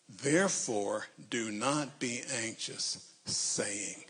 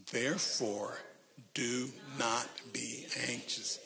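First: Slow word-by-word reading; reading aloud haltingly. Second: Reading aloud haltingly. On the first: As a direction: read it word by word. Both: Shown as a demonstration. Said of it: "read this very slowly".

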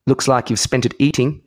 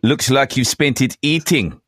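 First: Movie villain. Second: Slow, with a long pause before "Looks like you've spent it eating"; rehearsed comeback line read slowly after a pause; long pause first. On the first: Retold or imitated. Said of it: "He's in Lethal Weapon two, it sounded like". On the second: Pretend. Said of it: "too much of a pause at the beginning".

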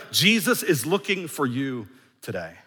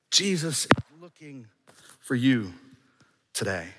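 First: Said in the usual way. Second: Slowed right down, each phrase set apart; drawn-out, deliberate restatement; slow, emphatic repeat. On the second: Shown as a demonstration. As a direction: let every word land slowly.

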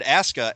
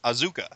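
First: "Asuka" said AH-ska, with an s sound; announcer's pronunciation. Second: "Azuka" with a z sound, ah-ZOO-kah; misread pronunciation. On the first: Host reporting how the announcer said it, "Asuka" as AH-ska. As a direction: say "Asuka" as two beats, AH-ska. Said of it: "Regal said Asuka". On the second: Host admitting his first reading of the name, "Azuka" with a z. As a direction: say "Azuka" with a voiced z and stressed zoo. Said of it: "I thought it was pronounced Azuka". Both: Shown as a demonstration.

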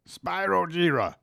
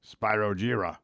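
First: High, dramatic anime name call; overacted anime dub. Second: Said in the usual way. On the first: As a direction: shout it like an anime hero. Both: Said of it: "That sounds like an anime character".

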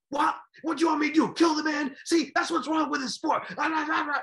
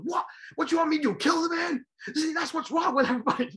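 First: High, loud and outraged; indignant yell. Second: High, loud outraged shout; indignant yell. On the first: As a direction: throw the question back, incredulous. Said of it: "he starts yelling". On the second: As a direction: fire back, incredulous. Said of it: "He goes". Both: Retold or imitated.

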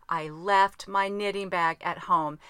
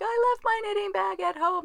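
First: "left" hit hard and drawn out, slow and louder, dismayed; stress on left. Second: Much higher, whining mock wail of "I left my knitting bag at home"; whiny text voice. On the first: Real, not acted. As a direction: land heavily on "left", slowly, like a sad confession. Dismayed repeat of her text. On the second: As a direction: wail it high like a sulking child. Quoting her own whiny text.

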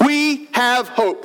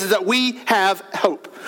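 First: We have hope, slowed right down, each word weighted; slow emphatic repeat. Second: Said in the usual way. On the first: Shown as a demonstration. Pastor repeating the point to his congregation, slow and weighted. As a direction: let "We have hope" land slowly, word by word.

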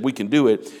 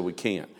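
First: Firm, confident "We can do it.". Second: Much softer, lower "We can't."; defeated. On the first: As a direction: say "We can do it." like a believer. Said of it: "the two that said". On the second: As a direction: let "We can't." sink in hopeless defeat. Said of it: "the ten that said". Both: Retold or imitated.

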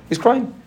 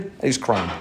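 First: He's crying jumped far higher with a rising end; crying pitched high and rising; emphatic pitch jump. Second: Said in the usual way. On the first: Acted. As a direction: lift it high to make them hear the baby. Repeating the baby's crying.

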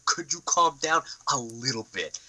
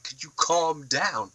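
First: Softer, in a changed, patronising voice; put-on condescending plea. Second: Drawn out, a bit higher and softer; slow mock calm-down. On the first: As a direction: plead mockingly in a silly voice. Repeats with changed voice. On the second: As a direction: talk him down slowly, with mockery. Mock reply to villain.

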